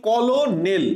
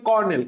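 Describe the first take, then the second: First: "কলোনেল" as ko-lo-nel, L sounded; spelling pronunciation. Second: "কর্নেল" in two syllables, kor-nel; usual pronunciation. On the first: Teacher contrasts spelling with speech, "কলোনেল" as ko-lo-nel. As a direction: read "কলোনেল" in three syllables, as written. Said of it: "স্পেলিংটা হবে কি?". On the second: Teacher gives spoken form, "কর্নেল" as kor-nel. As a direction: say "কর্নেল" with an R, no middle vowel. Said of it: "আমরা উচ্চারণটা করি কর্নেল". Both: Shown as a demonstration.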